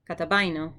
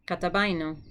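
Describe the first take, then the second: No difference in how they are said.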